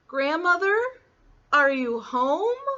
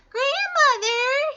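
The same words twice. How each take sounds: First: High, questioning rise; little girl calling. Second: Very high, slow falsetto call; fake little-girl voice. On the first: Acted. Little Red looking for grandmother in the cottage, questioning girlish voice. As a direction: call tentatively as a child. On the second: A narrator's reading. Wolf posing as Little Red at the door, fake girlish falsetto. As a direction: imitate a little girl, overdone and squeaky. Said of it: "in his best little girl voice".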